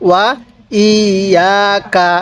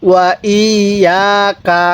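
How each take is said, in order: The two takes are said the same way.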